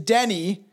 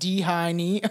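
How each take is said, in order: First: The name is said as Denny. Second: The name is said as D-Hiney. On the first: The speaker calls it right. "No, it's Denny" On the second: The speaker calls it wrong. "So I was like D-Hiney or something"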